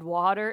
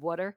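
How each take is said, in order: First: It is said in a California accent. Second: It is said in the local accent. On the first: This is how the speaker naturally said it. "I said water" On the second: This is how the school expected it to be said. "instead of water"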